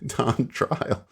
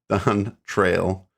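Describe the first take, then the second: First: The second part is said like 'trial'. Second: The second part is said like 'trail'. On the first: The speaker calls it wrong. "I've been saying it wrong" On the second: The speaker calls it right. "it's Don Trail, not Don Trial"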